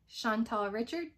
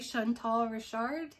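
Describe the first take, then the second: First: The surname is pronounced the English way. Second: The surname is pronounced the French way.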